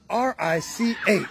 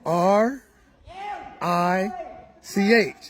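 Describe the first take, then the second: First: The letters are spelled at normal speed. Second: The letters are spelled out slowly.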